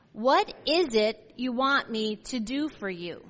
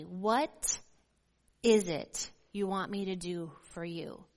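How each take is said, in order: First: Said in the usual way. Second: Tender question. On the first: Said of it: "Read verse thirty-six with me". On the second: Shown as a demonstration. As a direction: ask it tenderly, as an invitation. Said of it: "this tender question".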